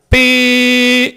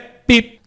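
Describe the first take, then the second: First: The sound is held out long. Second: The sound is short and clipped. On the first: A long horn blast, which is not allowed. The speaker calls it wrong. "isso não é breve, isso é longo" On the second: A brief horn tap, which is allowed. The speaker calls it right. "Toque breve é pi"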